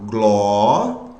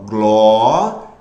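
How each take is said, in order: First: Glória split into two syllables, gló and ria, with a short break between them; syllabified. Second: Glória cut into three syllables, gló-ri-a, louder and lower; alternate syllabification. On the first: Teacher splitting Glória into syllables for students, gló-ria. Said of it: "Já fiz a divisão silábica". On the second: Teacher showing the grammarians' split of Glória, gló-ri-a. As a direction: separate Glória as gló-ri-a, each syllable apart. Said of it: "eles aceitam a separação silábica desta forma". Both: Shown as a demonstration.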